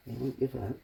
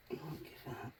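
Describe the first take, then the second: First: Said in the usual way. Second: Quiet. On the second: Real, not acted. Repeats encouragement softly to himself.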